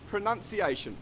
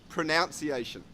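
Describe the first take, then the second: First: The second syllable has an 'ah' sound. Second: The second syllable has an 'ow' sound. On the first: The speaker calls it right. "the correct uh, way that we pronounce this is actually as it is spelt" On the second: The speaker calls it wrong. "it is incorrect to say"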